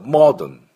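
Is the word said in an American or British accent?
British. The first vowel is rounded, close to oh. "イギリスになるとモードン"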